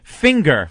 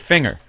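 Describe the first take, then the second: First: The word is said with a hard g. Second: The word is said without a hard g. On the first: "in Seattle they say it finger" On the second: "because I say finger"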